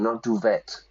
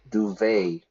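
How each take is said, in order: First: The word is said without the French pronunciation. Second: The word is said with the French pronunciation. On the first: The speaker calls it wrong. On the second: The speaker calls it right. "In English, we use the French pronunciation"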